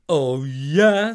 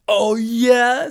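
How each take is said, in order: First: Genie retort. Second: Much higher, louder Oh, yeah?; louder genie retort. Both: Acted.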